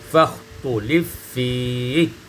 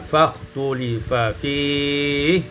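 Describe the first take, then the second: First: The two f sounds merge into one long f. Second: A short vowel separates the two f sounds.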